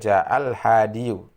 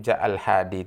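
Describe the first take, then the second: First: The last word ends with an added -yu. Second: The last word ends on a plain long i. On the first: The speaker calls it wrong. "tidak boleh ja'al hadiyu" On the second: The speaker calls it right. "Tetap begitu ja'al hadi"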